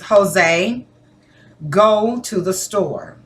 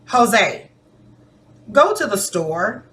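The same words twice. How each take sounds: First: It is said in a firm, commanding tone. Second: It is said in a gentle, polite tone. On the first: An order is being given. "That is me telling you, giving you a directive" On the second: A polite request is being made. "That sounds like I'm asking you politely"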